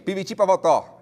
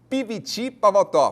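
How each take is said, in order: First: The phrase is said at a faster pace. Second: The phrase is said at a slower pace. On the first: "Já falou mais rápido" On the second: "primeira vez"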